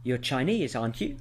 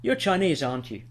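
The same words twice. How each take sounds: First: "aren't you" turns up at the end; rising tag intonation. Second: "aren't you" falls away at the end; falling tag intonation. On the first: Teacher demonstrates asking for confirmation, "aren't you" rising. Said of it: "a rising intonation". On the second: Teacher demonstrates expecting agreement, "aren't you" falling. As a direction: say "aren't you" downward, as a certainty. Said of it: "if the intonation falls". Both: Shown as a demonstration.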